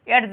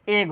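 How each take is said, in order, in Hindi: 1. "d" की आवाज़ आख़िरी आवाज़ से पहले बोली जाती है। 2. "d" की आवाज़ पूरी तरह छोड़ दी जाती है। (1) "नहीं ये एड्ज नहीं" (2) "डी क्या हो जाएगा, साइलेंट हो जाएगा"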